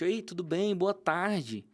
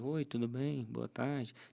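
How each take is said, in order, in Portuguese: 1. A saudação soa calorosa, com sorriso. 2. A saudação soa monótona, sem sorriso.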